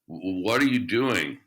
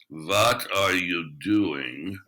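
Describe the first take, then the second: First: It sounds hesitant and fearful. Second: It sounds confident, with clear attitude.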